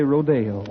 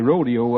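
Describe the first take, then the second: First: It is said the way border people say it. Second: It is said the way Wyoming people say it. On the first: This is how people along the border say it. "folks down along the border say rodeo" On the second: This is how people up in Wyoming say it. "They say rodeo up there"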